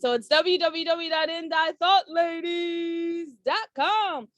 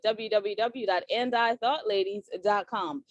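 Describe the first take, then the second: First: It is said like a pushy car salesman. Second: It is said in her plain normal voice.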